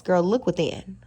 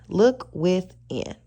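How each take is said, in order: First: Said in the usual way. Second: Slow it right down to drive it home; slow emphatic advice; slow, deliberate repeat. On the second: Shown as a demonstration. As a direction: Look within drawn out slowly, each word weighted.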